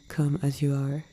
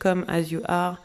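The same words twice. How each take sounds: First: It is said with a more English accent. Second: It is said with a strong French accent. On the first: "je sais pas si c'est mieux" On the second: "j'ai fait ça avec un bon accent français"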